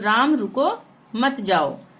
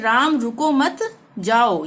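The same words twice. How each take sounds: First: There is a pause after रुको. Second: There is a pause after मत.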